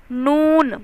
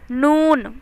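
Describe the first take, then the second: The two takes are said the same way.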